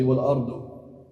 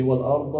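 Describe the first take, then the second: First: "wal ardu" ending on a short rounded u; "wal ardu" with a dhamma, u at the end. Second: "wal arda" ending on a short open a; "wal arda" with a fatha, a at the end. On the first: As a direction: say "wal ardu" with a clear final u. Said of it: "What if it had a dhamma". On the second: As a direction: say "wal arda" with the final a clearly voiced. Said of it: "it has a fatha". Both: Shown as a demonstration.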